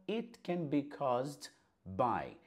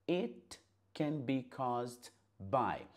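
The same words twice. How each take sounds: No difference in how they are said.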